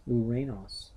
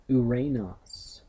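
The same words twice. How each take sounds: First: Said in the usual way. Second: "Uranos" said slowly and carefully, syllable by syllable; slow model pronunciation. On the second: Shown as a demonstration. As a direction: pronounce "Uranos" slowly for students to copy. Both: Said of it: "the heavens".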